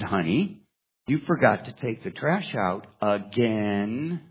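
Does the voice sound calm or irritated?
irritated. The sentence is said with irritation, twisting 'again'. The speaker is annoyed that it keeps happening. "a little irritation in her voice"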